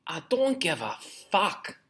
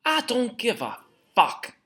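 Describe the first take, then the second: First: Put-on a slow first go at a Scottish accent. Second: Put-on higher, slower Scottish accent take. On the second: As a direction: push the Scottish accent up high and slow. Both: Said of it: "me Scottish accent's not that good".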